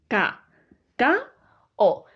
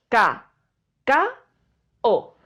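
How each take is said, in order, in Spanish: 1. La palabra se divide en sílabas separadas. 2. La palabra se divide en sílabas separadas.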